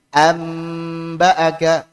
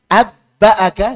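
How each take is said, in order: First: An m sound comes right before the b. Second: A doubled b sound comes before the b. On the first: It is the easiest to pronounce. The speaker calls it right. "yang iqlab diubah jadi mim ... paling mudah" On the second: It does not fit the rule. The speaker calls it wrong. "dengan ba coba. Enggak cocok"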